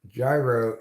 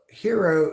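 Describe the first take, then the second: First: The word begins with a J sound. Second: The word begins with an H-like sound. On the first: It names a spinning motion. "Gyro is like a gyroscopic motion" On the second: It names the Greek sandwich. "hero is the Greek pronunciation of gyro"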